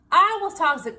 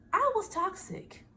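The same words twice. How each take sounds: First: I was toxic, louder and firmer; louder admission. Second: Soft admission. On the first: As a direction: say it out with force. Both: Real, not acted.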